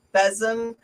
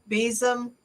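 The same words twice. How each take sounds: First: Besom said BEZ-um; short-E besom. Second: Besom said slowly as BEE-zum; long-E besom. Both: Shown as a demonstration. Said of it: "you can say either one".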